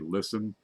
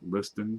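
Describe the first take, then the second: First: The t in the middle is silent. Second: The t in the middle is pronounced. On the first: This is how some other people say the name. "Some people say listen" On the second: This is the speaker's own way of saying the name. "I pronounce it Liston"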